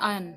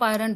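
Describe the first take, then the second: First: आयन with no r, gliding from y to n; silent R. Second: आयरन with a sounded r in the middle; R pronounced. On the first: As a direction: leave the r out of आयन. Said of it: "इसको हम बोलते हैं आयन". (आयन, बीच का 'र' चुप) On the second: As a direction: put an audible r in आयरन. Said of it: "आप आयरन बोलते हो". (आयरन, बीच में 'र' बोलकर) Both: Shown as a demonstration.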